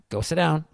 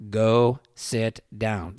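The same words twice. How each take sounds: First: Said in the usual way. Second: Each word drawn out and separate; slow it right down, firm; slow, deliberate order. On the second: Retold or imitated. Dad calmly ordering an angry cop, slow and deliberate. Same order repeated, slowed.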